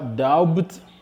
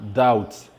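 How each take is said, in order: First: The B sound is pronounced. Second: The B sound is silent. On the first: The speaker calls it wrong. "Ne dites pas doubt" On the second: The speaker calls it right. "mais dites simplement doubt"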